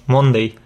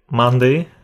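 First: "Monday" said the Spanish way, mon-dei; Spanish-style "Monday", full o and ei; Spanish pronunciation. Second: "Monday" said the English way, like mande; English vowel in "Monday", mande; English pronunciation. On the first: Teacher showing how Spaniards say "Monday". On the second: Teacher showing how "Monday" should sound in English. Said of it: "en lugar de decir". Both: Shown as a demonstration.

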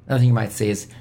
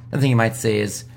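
Both takes have the same delivery.

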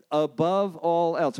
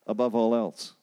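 First: Slow, higher, each word of "Above all else." weighted; "Above all else." drawn out slowly and pitched up; solemn emphasis. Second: Said in the usual way. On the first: Acted. Heavenly Father quoted, slow emphasis.

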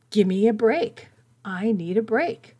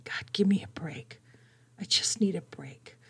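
First: Mild mock scream. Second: Breathy whispered plea to God; whispered inner cry. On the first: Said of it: "She was literally screaming". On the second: Retold or imitated. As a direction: whisper it as the scream in your head. Inner scream, but whispered.

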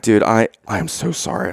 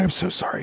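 First: Said in the usual way. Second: Hushed, much softer apology; whisper. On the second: Retold or imitated. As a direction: say "I'm so sorry" under your breath to a stranger. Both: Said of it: "I whisper".

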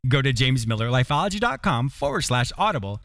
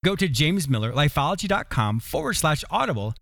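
Both takes have the same delivery.

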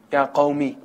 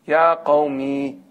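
First: Said in the usual way. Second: "Ya qawmi" stretched slowly, each syllable held; drawn-out emphasis. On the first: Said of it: "What does he say to them?". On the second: Shown as a demonstration. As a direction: linger on "Ya qawmi" with tender weight. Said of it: "what does he call them?".

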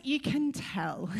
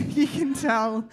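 First: Said in the usual way. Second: Laughing through it, slower; amused repeat, laughing. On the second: Real, not acted. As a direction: giggle the words out.

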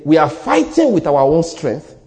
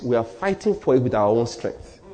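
First: "fighting" hit hard in a slow, firm line; slow down and punch "fighting"; emphatic restatement. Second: Said in the usual way. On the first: Real, not acted. Preacher saying it again to the congregation, emphatic. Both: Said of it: "Let me say it again".

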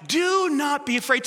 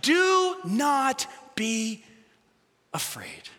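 First: Said in the usual way. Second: Very slow, afraid sinking to a whisper; gentle reassurance. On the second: Retold or imitated. Jesus calming the frightened disciples, slow and hushed. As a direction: soothe them, letting Do not be afraid fade out. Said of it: "and he says".

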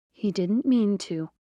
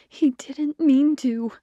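First: Said in the usual way. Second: Higher, louder and slow, pleading the excuse; insistent repeat. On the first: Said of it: "the first voice said". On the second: A narrator's reading. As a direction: lean hard on it, begging her to believe. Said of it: "the familiar first voice repeated".

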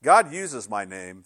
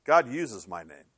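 First: Slow, weighted "God uses my name"; a teacher's key line, "God" stressed. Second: Slow repeat, "God" weighted; the repeated key line, "God" leaned on; stress on God. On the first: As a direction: lean on "God", measured and slow. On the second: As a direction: say "God uses my name" slowly, stressing "God". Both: Shown as a demonstration. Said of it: "here's a key for you".

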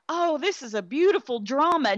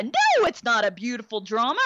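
First: High, gushing fake praise; mock gushing viewer. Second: Said in the usual way. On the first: Mocking drama fans who call it beautiful, high gushing. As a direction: mimic a cooing fan of the film. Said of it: "and think". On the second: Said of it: "own rebuttal".

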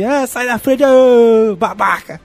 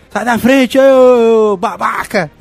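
First: Wolverine shout. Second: Loud, high shout, drawn-out insult; Wolverine shout. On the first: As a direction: yell it like the cartoon Wolverine. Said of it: "de falar assim". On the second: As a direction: shove him aside and yell. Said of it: "aí diz". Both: Retold or imitated.

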